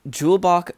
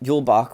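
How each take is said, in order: First: The word begins with a hard J sound. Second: The word begins with a Y sound. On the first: The speaker calls it wrong. "I probably pronounced that wrong" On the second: The speaker calls it right. "the J is supposed to be pronounced like a like a Y and not a hard J"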